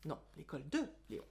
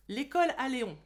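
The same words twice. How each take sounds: First: «de Léon» appuyé, vite et plus doux; correction. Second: «L'école à Léon» lancé fort avec «à»; titre mal dit. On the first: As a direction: corriger en appuyant sur «de». (rectifier le titre en appuyant sur «de») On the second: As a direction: dire «à Léon» au lieu de «de Léon», fort. (erreur sur le titre, dite fort) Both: Shown as a demonstration.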